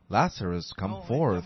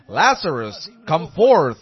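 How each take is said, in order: First: It is said softly and quietly. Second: It is said loudly and forcefully. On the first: The call was gentle and quiet. The speaker calls it wrong. "Don't think that he spoke softly there" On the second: The call was a thundering command. The speaker calls it right. "like that, with a loud voice"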